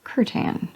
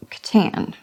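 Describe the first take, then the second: First: "Curtan" with the emphasis on CUR; "Curtan" as CUR-tan, front-stressed; stress on first syllable. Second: Said in the usual way. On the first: Shown as a demonstration. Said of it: "emphasis on the first syllable". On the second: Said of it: "so it is just Catan".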